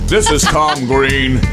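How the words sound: It is spoken in a put-on announcer voice. The speaker calls it wrong. "No, see, I'm trying to do a radio voice"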